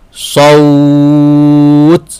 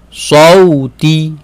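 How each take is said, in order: First: The word ends in a consonant, vowel lengthened. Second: The word ends with a short final vowel. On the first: The reading stops at this word. "Kalau waqaf" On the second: The reading continues into the next word. "Bacaan ketika wasal"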